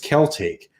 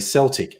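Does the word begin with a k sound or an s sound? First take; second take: k sound; s sound. First: The word begins with a k sound. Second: The word begins with an s sound. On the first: This is the Latin-derived pronunciation used for the history. "going back to the original Latin Celte" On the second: This is the modern adapted pronunciation. "in more modern uh, adaptations, people will say Celtic"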